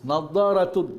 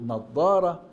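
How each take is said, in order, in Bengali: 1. শব্দটি যোগ করা -tun দিয়ে শেষ হয়। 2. শব্দটি -tun ছাড়া শেষ হয়।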